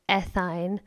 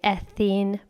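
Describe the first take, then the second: First: The ending is said with an 'ine' sound. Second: The ending is said with an 'een' sound. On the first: "I studied in the United States, so I have heard" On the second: "a lot of teachers here will still say"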